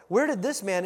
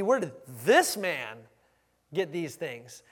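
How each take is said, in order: First: Said in the usual way. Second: Drawn-out, loud emphasis on "this man"; stress on "this man". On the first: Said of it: "it should be". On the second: Shown as a demonstration. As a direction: lean hard and slow on "this man", then drop away. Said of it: "catch the intonation there".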